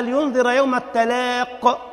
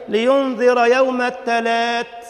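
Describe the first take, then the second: First: قاف واضحة في "التلاق" ببطء; correct recitation. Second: "التلات" with a t in place of the qaf, drawn out slowly; mock the imam reading "التلات" like the market name, very slow; mocking mispronunciation. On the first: Shown as a demonstration. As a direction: recite "التلاق" with a clear qaf, slowly. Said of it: "بالقاف". (التلاق بالقاف واضحة ومتأنية) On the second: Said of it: "وساعات يقول لك إيه؟". (تقليد ساخر: "التلات" بالتاء بدل القاف ببطء شديد)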